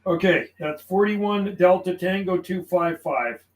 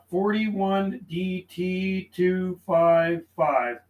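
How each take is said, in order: First: Said in the usual way. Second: Forty-one D T two five five, each part slow and spaced while writing it down; slow dictation. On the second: Shown as a demonstration. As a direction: read the callsign out slowly, as if noting it. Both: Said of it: "I logged him down".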